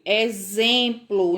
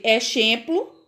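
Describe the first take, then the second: First: "exemplo" read as e-ZEM-plo; "exemplo" with z for the x, falling; X with Z sound. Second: "exemplo" misread as e-SHEM-plo, questioning; "exemplo" with sh instead of z, rising; wrong X sound. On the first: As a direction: say "exemplo" with a clear buzzing z. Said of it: "tem o som da letra Z". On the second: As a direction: ask "exemplo" with sh for the x. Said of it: "Se eu fosse ler com o som". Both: Shown as a demonstration.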